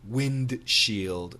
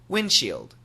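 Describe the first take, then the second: First: The D sound is clearly pronounced. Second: The D sound is dropped entirely. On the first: "Perfect pronunciation" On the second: "normal pronunciation, ... You just don't hear the D"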